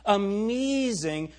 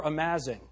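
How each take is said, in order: First: "Amazing" stretched slowly with an E vowel, a-MEE-zing; mock girly "Amazing" with an E sound. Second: "amazing" with a clear A sound, a-MAY-zing; "amazing" as the preacher would settle for; pronunciation. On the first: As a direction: drawl "Amazing" the girls' way, A turned to E. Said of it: "how you get an E sound out of an A". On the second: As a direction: say "amazing" properly with the A vowel. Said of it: "I would even settle for". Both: Shown as a demonstration.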